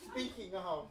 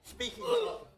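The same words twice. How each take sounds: First: Said in the usual way. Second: Mock flirty.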